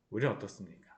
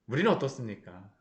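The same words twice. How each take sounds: First: "우리는 어떻습니까?" said again much softer and lower; quiet repeat. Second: Said in the usual way. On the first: Shown as a demonstration. Preacher repeating the question to the congregation, hushed. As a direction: drop the voice to let "우리는" sink in.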